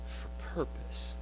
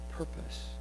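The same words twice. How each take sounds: First: Slow whispered "purpose". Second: Whispered echo of "Purpose". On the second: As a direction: repeat "Purpose" as a soft whisper. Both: Acted.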